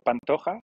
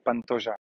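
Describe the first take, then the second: First: The name is said with Spanish pronunciation. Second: The name is said with Portuguese pronunciation. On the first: "si c'était en espagnol, c'est Pantoja" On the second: "chez les Brésiliens, donc c'est du portugais, je crois que c'est Pantoja"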